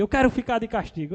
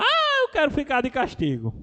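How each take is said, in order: First: Lightly voiced little boy, higher and quick; imitated defiant child. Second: Imitated child's shouting. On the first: Nephew asking uncle for punishment, lightly imitated defiant child. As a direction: toss it out like a cheeky kid. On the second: Nephew playfully demanding punishment from uncle, imitated shouting. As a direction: holler it like a playful little boy. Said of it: "Aí ele começava a gritar".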